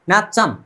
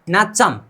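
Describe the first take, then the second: First: It is said smoothly with a ch sound. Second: It is said smoothly with a ch sound.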